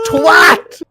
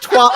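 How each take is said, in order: First: The vowel sounds like the word 'at'. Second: The vowel does not sound like 'at'. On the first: The speaker calls it right. "It's twat" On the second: The speaker calls it wrong. "He says twat like a fucking idiot"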